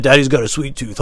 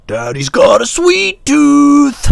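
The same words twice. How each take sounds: First: Everyday delivery capped with a laugh; lightly imitated jokey dad; imitating how he said it. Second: High, slow, drawn-out screech; loud, stretched falsetto caricature; morphed creepy daddy voice. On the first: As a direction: say it casually, then chuckle. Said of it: "he laughed like that". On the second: Retold or imitated. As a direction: screech it slowly like a movie monster. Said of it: "I morphed it into".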